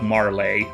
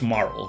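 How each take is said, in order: First: The name is said as two syllables. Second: The name is said as one syllable. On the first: The speaker calls it wrong. "It's not like Marley" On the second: The speaker calls it right. "I think that's a silent e"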